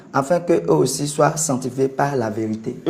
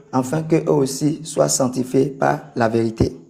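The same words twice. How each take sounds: The two takes are said the same way.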